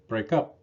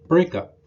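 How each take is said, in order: First: The stress falls on the second word. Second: The stress falls on the first word. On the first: It is used as a verb. "Two-word verbs are often stressed on the second word" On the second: It is used as a noun. "Noun partners of these verbs have primary stress on the first word"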